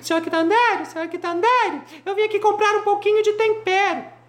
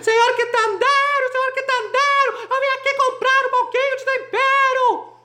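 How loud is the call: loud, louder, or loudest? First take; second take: loud; loudest. First: It is called out at a moderate shout. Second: It is shouted at the loudest level.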